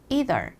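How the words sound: It is said in an American accent.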